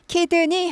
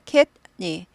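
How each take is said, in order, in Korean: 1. d 소리는 한 음절로 완전히 터져요. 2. d 소리는 짧게 끊겨요, 스타카토처럼요. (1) "키드니 하지 않고" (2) "캣니. 여기 이제 스타카토이세요"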